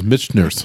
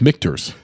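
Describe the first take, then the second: First: The ch is said like sh. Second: The ch is said like a k. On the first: The speaker calls it wrong. "I originally pronounced it as Michter's" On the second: The speaker calls it right. "it's Michter's"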